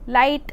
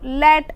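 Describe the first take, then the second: First: The vowel glides like English 'light'. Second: The vowel is a flat single 'ae' sound. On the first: This is the original English form. "अंग्रेजी के शब्द" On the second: This is the local Bihari form. "Bihar पहुंचता है तो उसका उसमें ध्वनि परिवर्तन थोड़े से हो जाते हैं और वो लैट कहा जाता है"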